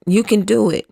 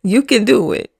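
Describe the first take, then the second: First: "do" carries the weight, "can" light; falling stress on "do". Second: "can" lifted and leaned on; "can" stressed, rest lighter. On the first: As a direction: land firmly on "do". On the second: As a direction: push the word "can" as encouragement. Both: Real, not acted.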